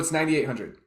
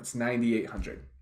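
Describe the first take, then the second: First: It is said in a tense, tight, uneasy way. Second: It is said softly and certainly, falling at the end. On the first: It creates awkward silence and uncertainty about who speaks next. The speaker calls it wrong. "when you're all tense and puckered up" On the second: The ball is now in the other person's court. The speaker calls it right. "downward inflection, spoken with very soft certainty"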